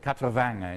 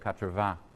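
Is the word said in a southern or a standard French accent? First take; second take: southern; standard. First: It is said with a southern French accent. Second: It is said with a standard French accent. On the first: "somebody who says uh, quatre-vingts" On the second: "instead of"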